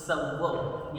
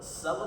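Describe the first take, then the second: First: The v sound is doubled and stressed. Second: The v sound is single and short. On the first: The speaker calls it right. "Stress देकर के बोलेंगे" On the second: The speaker calls it wrong. "सव नहीं बोलना"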